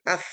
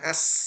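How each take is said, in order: First: The consonant is a th sound. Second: The consonant is an s sound. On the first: The speaker calls it right. "ujung lidah digigit" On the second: The speaker calls it wrong. "bukan as, bukan sin ya"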